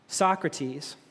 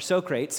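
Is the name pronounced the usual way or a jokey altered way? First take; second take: usual; altered. First: The name has its usual, standard pronunciation. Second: The name has a jokey, altered pronunciation.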